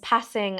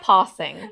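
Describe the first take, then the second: First: The word is said in a Birmingham accent. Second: The word is said in a standard accent. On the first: "I say in my Birmingham accent" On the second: "I can't say passing"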